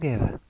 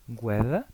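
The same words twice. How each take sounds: First: The u after the g is silent. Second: The u after the g is pronounced. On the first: The speaker calls it wrong. "y no" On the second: The speaker calls it right. "la u se pronuncia"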